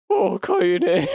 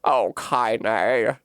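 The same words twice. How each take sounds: First: Brighter, lightly voiced grandma; first try at the tender grandma line; rejected old woman take. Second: Tender grandma. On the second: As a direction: say her name gently. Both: Shown as a demonstration. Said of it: "No, that's not as good".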